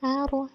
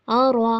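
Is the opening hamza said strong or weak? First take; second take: weak; strong. First: The opening hamza is soft and weak. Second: The opening hamza is strong and forceful. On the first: The speaker calls it wrong. "ऐसे नहीं पढ़ना" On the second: The speaker calls it right. "Hamza को मज़बूती के साथ"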